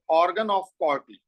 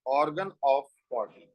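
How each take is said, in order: First: Very slow, each word spaced out; slow dictation. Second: Very slow and a little lower; slow repeat. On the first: Teacher repeating the term for notes, slow and deliberate. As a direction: spell it out slowly for students to write. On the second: Teacher saying the term again for notes, slow and lower. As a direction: repeat the term slowly so it sinks in. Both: Shown as a demonstration.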